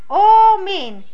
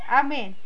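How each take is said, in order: First: The first vowel sounds like 'o'. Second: The first vowel sounds like 'a'. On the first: This is the traditional reading used for Torah and prayer. "как читают Тору и молитву, тогда мы читаем омин" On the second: This is the everyday spoken reading. "на котором как мы разговариваем, то мы говорим амин"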